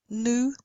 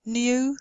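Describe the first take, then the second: First: "new" said as "noo"; no y after n in "new"; American, no glide. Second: "new" said as "nyoo"; British y glide. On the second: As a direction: put a y after n in "new". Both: Shown as a demonstration. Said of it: "Same thing".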